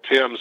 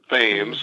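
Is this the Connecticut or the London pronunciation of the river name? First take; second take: London; Connecticut. First: It is pronounced the London way. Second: It is pronounced the Connecticut way. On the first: This is the river in London. "spelled just like Thames in London" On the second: This is the river in Connecticut. "but they pronounce it Thames"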